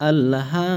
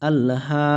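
Both takes have the same delivery.

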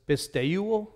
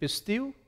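First: The word ends with a final o vowel. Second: The word ends without a final o vowel. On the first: This is the Erasmian pronunciation. "in Erasmian pronunciation, we're pronouncing every single consonant vowel" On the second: This is the modern and Koine pronunciation. "in modern and Koine pronunciation"

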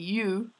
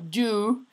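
First: The word begins with a 'y' sound. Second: The word begins with a 'j' sound. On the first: The speaker calls it right. "Se dice you" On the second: The speaker calls it wrong. "no you"

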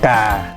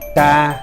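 First: The tone goes down to low pitch. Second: The tone stays level at mid pitch. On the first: "tiếng sẽ thấp xuống ngang nhau với là tiếng dấu huyền" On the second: "tiếng xá măn"

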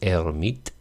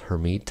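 First: The name has a French pronunciation. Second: The name has an American English pronunciation. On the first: "French pronunciation is Hermite" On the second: "I guess most Americans say"

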